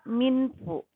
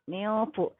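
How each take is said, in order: First: The n is pronounced fully and clearly. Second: The n is blurred into a nasal sound. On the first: The speaker calls it wrong. "Tidak boleh dibaca minfu" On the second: The speaker calls it right. "Maka disamarkan bacaannya"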